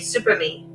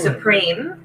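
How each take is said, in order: First: It is said as 'super me', three syllables. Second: It is said as the usual 'supreme'. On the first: The speaker calls it wrong. "They say Super Me" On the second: The speaker calls it right. "instead of Supreme"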